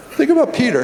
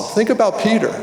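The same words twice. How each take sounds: First: "Think about Peter" pitched much higher; urging, raised-pitch repeat; emphatic repeat. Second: Said in the usual way. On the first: Shown as a demonstration. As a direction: lift the whole phrase high to drive it home. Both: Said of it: "repeated for emphasis".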